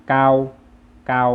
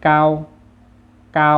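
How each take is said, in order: First: เกา as Vietnamese, level and loud; Vietnamese pronunciation. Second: เกา as Chinese, high level and loud; Chinese pronunciation. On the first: Teacher reads the Vietnamese for tall, Vietnamese pronunciation of เกา. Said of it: "ภาษาเวียดก็จะอ่านว่า". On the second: Teacher reads the Chinese for tall, Chinese pronunciation of เกา. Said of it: "ภาษาจีนอ่านว่า". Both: Shown as a demonstration.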